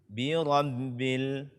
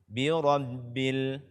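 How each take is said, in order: Both takes have the same delivery.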